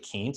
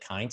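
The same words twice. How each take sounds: First: The vowel sounds like 'ee', a long E. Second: The vowel sounds like 'eye', a long I. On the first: The speaker calls it right. "It's actually Kientz. ... I before E in German is long E sound" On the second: The speaker calls it wrong. "he mispronounced my last name. He pronounced it Kientz"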